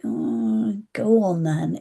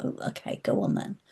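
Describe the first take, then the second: First: Said in the usual way. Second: Breathy whisper, quietly giving in; whispered agreement. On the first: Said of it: "And I was like". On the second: Retold or imitated. Agreeing to the friend in the dream, whispered. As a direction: say it barely voiced. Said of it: "it was like".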